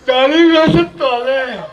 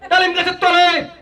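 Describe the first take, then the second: First: It is recited in a drowsy, sleepy voice. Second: It is recited like a political speechmaker.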